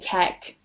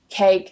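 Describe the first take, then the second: First: The vowel is a short ek sound. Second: The vowel is the gliding ake sound.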